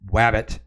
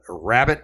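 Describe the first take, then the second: First: The word begins with a W sound. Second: The word begins with an R sound. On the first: The speaker calls it wrong. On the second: The speaker calls it right.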